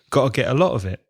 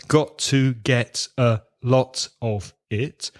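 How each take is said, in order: First: Weak forms are used and the Ts are dropped. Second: Every word is said in full with clear Ts.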